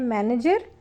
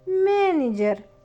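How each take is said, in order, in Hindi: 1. यह अंग्रेज़ी लहजे में बोला गया है। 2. यह रूसी लहजे में बोला गया है। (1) "इंग्लिश में बोलते हैं मैनेजर" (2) "थोड़ा एक्सेंट रशियन लाना है"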